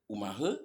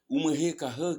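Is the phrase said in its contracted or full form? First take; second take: contracted; full. First: The phrase is shortened into one brief word. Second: The phrase is said in its long, full form. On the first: The tone is casual and familiar. "pour faire plus court" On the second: The listener is someone to be treated with respect. "qui est très long"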